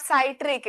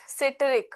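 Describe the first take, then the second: First: "citric" with first syllable like "sigh": SIGH-trik; mispronounced citric. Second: "citric" with short first i, like "sit": SIT-rik; correct citric pronunciation. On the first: Teacher echoing a student's slip to correct it, mispronounced "citric" as SIGH-trik. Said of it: "Not citric". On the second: Teacher correcting a student in class, "citric" pronounced SIT-rik with short i. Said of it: "it's citric". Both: Shown as a demonstration.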